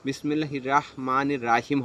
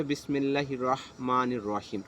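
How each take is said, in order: First: রহমানির and রাহিম with a thin, open "raa"; wrong-example reading, open "ra" instead of rounded "rɔ"; incorrect pronunciation demo. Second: রহমানির and রহিম with a full, rounded heavy r, "rɔh"; careful, correct recitation with rounded "rɔ" in রহমানির রহিম; correct Arabic pronunciation. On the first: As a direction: say রাহিম as "Raahim", light r with a long a. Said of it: "এটা হচ্ছে অশুদ্ধ উচ্চারণ". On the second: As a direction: say রহিম as "Rɔhim", the r full-mouthed. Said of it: "শুদ্ধ উচ্চারণ হচ্ছে". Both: Shown as a demonstration.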